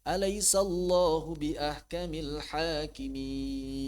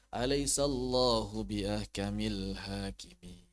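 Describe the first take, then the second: First: The ending stays questioning, like asking. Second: The ending falls, as if finished.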